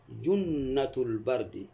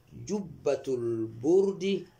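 First: Slow "جنة البرد" as junnatu l-bardi; contrasting a vowel. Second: Very slow "جبة البرد" as jubbatu l-burdi; contrasting u vowel. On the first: Teacher shows the pun's second half, slow bard with a. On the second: Teacher shows the altered-vowel pun, slow burd with u. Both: Shown as a demonstration. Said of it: "محرفا".

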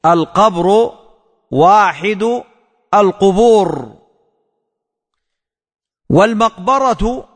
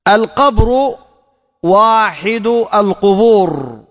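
First: Word-by-word dictation. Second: Said in the usual way. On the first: Shown as a demonstration. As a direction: say each word alone with a pause after it. (إملاء كلمة كلمة مع وقفة بعد كل كلمة)

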